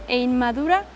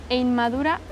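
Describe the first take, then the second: Both takes have the same delivery.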